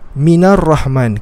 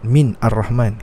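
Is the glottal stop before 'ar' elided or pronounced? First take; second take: elided; pronounced. First: The words run together without a glottal stop. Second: A glottal stop separates the words before 'ar'. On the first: The speaker calls it right. "kita kata Minar Rahman" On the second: The speaker calls it wrong. "kita tak kata"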